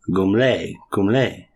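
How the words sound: The name is said with French-style sounds. The speaker calls it right. "It's actually a French um, neighborhood"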